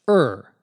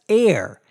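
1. Гласный звучит как звук-запинка er. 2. Гласный звучит как слово air. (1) "In British English, however, it is always pronounced er" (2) "is now often pronounced somewhat mistakenly, but now more commonly as air"

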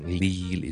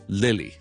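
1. 第一个元音是紧的，绷得比较紧。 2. 第一个元音是松的，放松的。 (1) "唔使读得咁紧嘅，就唔使读成Lily" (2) "就系读Lily 就可以啦"

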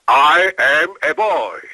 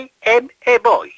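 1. Mówi się z bardziej dopracowanym akcentem. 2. Mówi się z wyraźnym obcym akcentem.

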